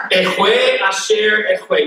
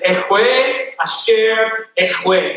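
First: "Ehwe Asher Ehwe" slow and throaty, with a laugh; throaty kh in "Ehwe", said slowly; slow, throaty "Ehwe Asher Ehwe" through a chuckle; guttural Hebrew, laughing. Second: "Ehwe Asher Ehwe" slow, with a throaty kh in "Ehwe"; slow, throaty Hebrew "Ehwe Asher Ehwe"; guttural Hebrew. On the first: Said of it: "back of your throat going". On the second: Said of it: "You gotta get the guttural". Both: Shown as a demonstration.

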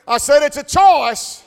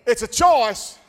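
First: Louder, higher shouted choice; shouted repeat. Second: Shouted declaration. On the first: Preacher insisting to the church, louder repeat. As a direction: hammer choice harder the second time. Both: Acted.

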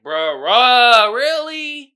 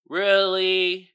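First: Incredulous. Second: Said in the usual way. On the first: Real, not acted. Exasperated disbelief at the movie.

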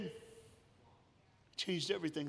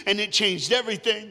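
First: Much softer, very slow, hushed repeat; soft echo. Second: Louder, high, driving the point home; ringing preacher's line. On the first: Preacher repeating his point to the church, hushed and slow. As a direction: let it land quietly, almost to yourself. Echo after loud line. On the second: Preacher declaring to the church, loud and rising. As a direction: proclaim it to the whole church. Preacher building, then softening. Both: Acted.

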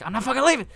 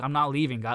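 First: High, loud mock defiance; defiant movie-style shout. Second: Said in the usual way. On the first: Imagining the player refusing to leave, mock defiant shout. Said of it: "Like, Leonard". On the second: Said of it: "being like".

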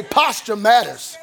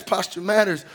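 First: Slow, punched "Posture matters."; call-and-response shout. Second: Said in the usual way. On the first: Shown as a demonstration. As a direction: lead the crowd, hit "Posture" hard. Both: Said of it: "Somebody say".

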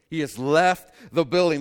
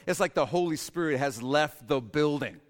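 First: Loud emphatic repeat. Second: Said in the usual way. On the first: Shown as a demonstration. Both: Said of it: "repeated louder".

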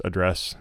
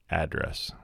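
First: "address" said uh-DRESS, weak first vowel, stress on DRESS; address stressed on second syllable. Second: "address" said AD-dress, full a vowel, stress on AD; address stressed on first syllable. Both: Shown as a demonstration. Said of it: "I guess it depends where you're from. Colloquialism".

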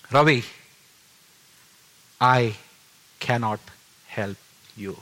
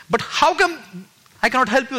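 First: Voice from heaven. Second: High-pitched, incredulous echo; bewildered questioning. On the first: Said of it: "And the voice said". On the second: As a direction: question it in disbelief, voice raised high. Puzzled reaction to the voice's words. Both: Retold or imitated.

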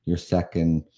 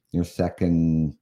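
No difference in how they are said.

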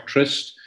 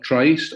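First: "Tryst" with a short i, rhyming with list; short-i pronunciation. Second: "Tryst" with a long i, rhyming with iced; long-i pronunciation. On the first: Composer offering the other version, "Tryst" said with a short i. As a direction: say "Tryst" with the vowel of "sit". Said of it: "people wanting to say Tryst". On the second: Composer naming his festival, "Tryst" said with a long i. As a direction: say "Tryst" with the vowel of "price". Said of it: "Some people pronounce it Tryst". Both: Shown as a demonstration.

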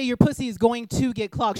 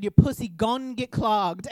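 First: "going to" said in full, both words separate; full careful wording. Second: "gon'" cut to one syllable, drawn out slowly; imitated slangy drawl. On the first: Retold or imitated. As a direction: spell out "going to" in standard, careful speech. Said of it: "And she didn't say". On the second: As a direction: mimic the roommate's slang, stretching "gon' get clogged". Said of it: "Why are you talking like that?".

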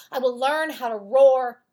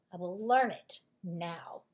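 First: "roar" held long and loud at the end; "I will learn how to roar" with "roar" punched and stretched; stress on roar. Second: "I will learn it now" with "learn" pressed and "now" falling low; stress on learn. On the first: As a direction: lean hard into "roar", louder. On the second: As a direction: land on "learn", then drop low for "now". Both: Acted. Mouse's determined vow.

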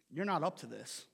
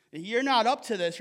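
First: Soft and low. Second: Said in the usual way. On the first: Acted. Jesus's line, said twice.

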